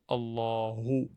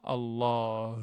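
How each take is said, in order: First: The word ends with an amplified 'hu' sound. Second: The word ends without a final 'hu' sound. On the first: The speaker calls it right. "Hu, c'est amplifié" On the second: The speaker calls it wrong. "Et non pas Allah"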